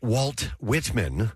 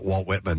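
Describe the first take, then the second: First: The T in Walt is clearly pronounced. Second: The T in Walt is skipped over. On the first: "I don't say Walt Whitman" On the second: "I'll skip over the T and the Walt a little bit"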